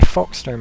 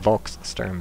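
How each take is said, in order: First: The word begins with an F sound. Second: The word begins with a V sound. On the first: The speaker calls it right. "I say Folksturm" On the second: The speaker calls it wrong. "instead of Volkssturm because I believe in German the V is pronounced like an F"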